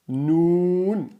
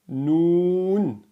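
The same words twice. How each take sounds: The two takes are said the same way.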